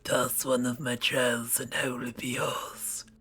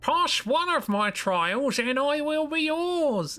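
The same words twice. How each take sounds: First: It is said in a raspy voice. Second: It is said in a plain voice.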